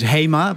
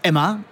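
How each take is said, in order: First: The name is said with a Dutch pronunciation. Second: The name is said with a French pronunciation. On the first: This is how Dutch speakers say it. "the Dutch way of pronouncing it is HEMA" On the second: This is how French customers say it. "French customers call it Emma"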